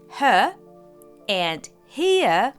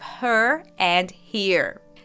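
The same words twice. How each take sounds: First: The R sounds are soft or silent. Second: The R sounds are clearly pronounced. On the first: "his R's are non-rhotic" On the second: "unlike in American English"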